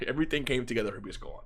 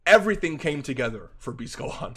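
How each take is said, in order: First: "everything came together for Beast Gohan" said again softer and fast, half-laughing; a sheepish softer rerun of the line; softer, quick repeat. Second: Said in the usual way. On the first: Shown as a demonstration. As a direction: take it back down, softer and quick. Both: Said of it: "I'm sorry".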